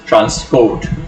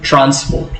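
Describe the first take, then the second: First: The stress is on the second syllable. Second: The stress is on the first syllable. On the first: It is used as a verb. "if you are using it as a verb, you have to pronounce it as transport" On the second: It is used as a noun. "if you are using it as a noun, you have to put the stress on the first syllable"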